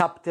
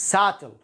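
First: "subtle" with the b sounded; wrong pronunciation. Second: "Subtle" with a silent b; correct pronunciation. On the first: Teacher warning learners off a mistake, "subtle" with an audible b. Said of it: "وليست". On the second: Teacher modelling for learners, "Subtle" with the b dropped. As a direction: say "Subtle" as "sattle", no b. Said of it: "وليست subtle. لا". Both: Shown as a demonstration.

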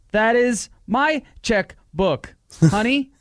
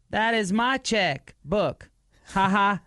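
First: High, loud, slow stilted line; overacted wooden delivery; bad acting. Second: High, slow, stilted line reading; overacted wooden delivery; bad acting. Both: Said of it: "Worst acting ever".

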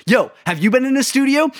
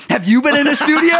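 First: High, bouncy imitation of a buddy's hopeful ask; hammed-up buddy asking about the studio; mock eager question. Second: Higher and louder repeat breaking into laughter; laughing through the imitated question; mock question, laughing. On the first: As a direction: act out your friend asking, half-joking. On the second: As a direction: repeat the ask while cracking up. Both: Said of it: "you just turn around and go".

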